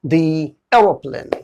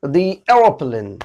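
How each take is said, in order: First: The said as thee before aeroplane, slowly; "thee" before vowel, slow. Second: The said as thee before aeroplane, drawn out; "thee" repeated, slow. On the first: Teacher modelling the thee sound, slowly. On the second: Teacher repeating the slow model for students. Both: Shown as a demonstration. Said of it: "तब sound आएगा दी".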